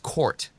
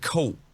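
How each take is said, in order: First: The word is said in an American accent. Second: The word is said in an East London accent. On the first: "But in American, it's court" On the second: "In the English accent, right, the sort of East London sort of accent"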